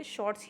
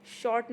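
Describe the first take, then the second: First: शॉर्ट्स ending in a ts sound; correct plural form. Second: शॉर्ट ending on t, no final s; wrong singular form. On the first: Teacher gives students the only form, शॉर्ट्स with final s. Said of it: "शॉर्ट्स ही बोलते हैं". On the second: Teacher rejects the singular for students, शॉर्ट without final s. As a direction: stop शॉर्ट at the t. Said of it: "शॉर्ट नहीं बोल सकते". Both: Shown as a demonstration.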